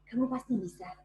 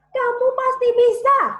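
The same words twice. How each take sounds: First: It is said softly with little vocal power. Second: It is said loudly with maximum vocal power.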